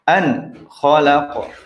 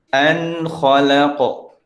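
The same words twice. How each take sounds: First: The n is pressed hard with a brief stop. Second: The n is clear, relaxed and flowing. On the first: The speaker calls it wrong. "seakan-akan terjadi tekanan yang terlalu berlebihan" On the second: The speaker calls it right. "pertengahan. ... santai"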